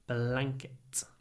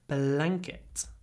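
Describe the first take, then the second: First: The vowel and ng sound are clipped short. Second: The vowel and ng sound are clipped short.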